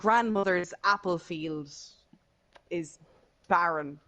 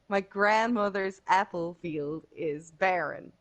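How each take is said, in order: First: It is said in an Irish accent. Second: It is said in an American accent.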